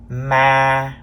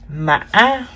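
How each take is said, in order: First: The pitch stays level at mid height. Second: The pitch rises high with a glottal break. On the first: "This is the mid-level tone, or sometimes we call it the flat tone" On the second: "The fifth tone is called the high broken tone"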